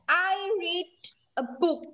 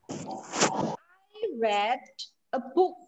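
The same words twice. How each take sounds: First: The word read has a long ee vowel. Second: The word read has a short eh vowel. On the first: The reading happens now. "Berarti saya bacanya sekarang" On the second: The reading happened in the past. "Berarti saya membaca bukunya tadi pagi kemarin yang sudah berlalu"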